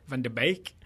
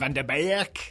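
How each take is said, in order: First: The Dutch sounds are softened and toned down. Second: The Dutch sounds are hit hard, over the top. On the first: "You've t- you've toned it down" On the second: "doing it extra, going"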